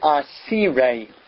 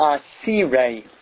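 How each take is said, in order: First: The second vowel is i. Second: The second vowel is i.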